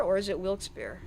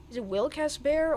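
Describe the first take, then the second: First: "Wilkes-Barre" in two syllables, WILKS-bare; unsure two-syllable "Wilkes-Barre"; alternate pronunciation. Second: "Wilkes-Barre" with an extra middle syllable, WIL-kas-bare; unsure three-syllable "Wilkes-Barre"; alternate pronunciation. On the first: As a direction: say "Wilkes-Barre" with no vowel between k and s. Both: Shown as a demonstration. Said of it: "how you pronounce that".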